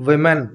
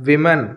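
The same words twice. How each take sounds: No difference in how they are said.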